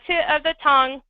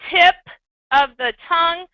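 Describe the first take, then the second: First: The T and P sounds are mumbled and blurred. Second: The T and P sounds are clearly pronounced. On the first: The speaker calls it wrong. "That's not articulating" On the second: The speaker calls it right. "I should hear a T and a P"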